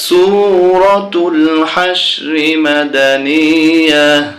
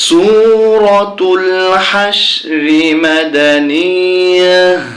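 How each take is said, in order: No difference in how they are said.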